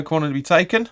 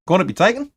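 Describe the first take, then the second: First: Light Australian lilt on the call; an accidental hint of Australian; Aussie accent. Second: Put-on playful Geordie accent, lifting up at the end. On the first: Commentator calling a corner, slipping into a light Australian accent. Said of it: "sounded all Aussie there". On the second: Streamer redoing his corner call for laughs, in a mock Geordie accent. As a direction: try the call again in a jokey Geordie voice. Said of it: "That's more Geordie".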